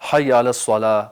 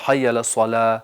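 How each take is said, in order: Both takes have the same delivery.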